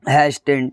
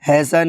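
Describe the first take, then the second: First: The t sound is pronounced in the middle. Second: The t sound is silent in the middle. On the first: The speaker calls it wrong. "ना कि हैस्टन" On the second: The speaker calls it right. "हैसन है"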